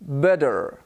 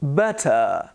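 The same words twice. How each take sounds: First: American "better" with tapped t and sounded r; imitated American r on "better"; American pronunciation. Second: "better" with crisp t and final "uh"; non-rhotic British "better", no r; British schwa ending. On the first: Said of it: "an American would say". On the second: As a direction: say "better" as "bet-uh". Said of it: "when I say". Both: Shown as a demonstration.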